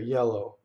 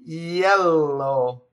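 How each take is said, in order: First: The Y starts low, as in English. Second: The Y starts high, as in Italian.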